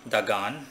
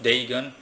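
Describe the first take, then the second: First: The name is said the original, older way. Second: The name is said the anglicized English way. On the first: "I think the original pronunciation is Dagan" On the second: "Deigan is in English more"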